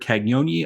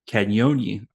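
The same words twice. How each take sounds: First: The G is said as a hard G. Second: The G is said like a Y sound. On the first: The speaker calls it wrong. "I was way off there" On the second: The speaker calls it right. "It's more of a Y instead of a G"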